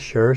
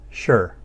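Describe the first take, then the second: First: The word is said with a light neutral tone. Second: The word is said with a falling tone. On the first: "sure is going to have that neutral tone. It won't fall" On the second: "by itself, it's spoken in the fourth tone"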